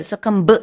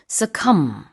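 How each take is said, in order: First: The final b sound is pronounced. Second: The final b sound is silent. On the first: The speaker calls it wrong. "뒤에 succumb 이렇게 발음하진 않고요" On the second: The speaker calls it right. "B는 silent입니다"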